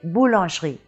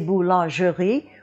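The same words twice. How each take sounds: First: The mute E in the middle is dropped. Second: The mute E in the middle is sounded. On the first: The speaker calls it right. "we say boulangerie, and that mute E is dropped" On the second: The speaker calls it wrong. "We don't say boulangerie"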